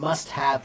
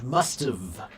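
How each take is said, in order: First: Both words are said fully and separately. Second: The words are joined into one contracted form.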